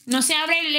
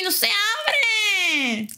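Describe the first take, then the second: First: Said in the usual way. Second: Long, high, drawn-out cry; frustrated wail. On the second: Real, not acted. Stuck, repeats it louder.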